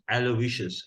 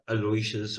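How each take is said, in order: First: The name is said with its standard pronunciation. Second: The name is said with a variant pronunciation. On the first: The speaker calls it right. "the proper pronunciation, which is Aloysius" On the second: The speaker calls it wrong. "and not Aloysius"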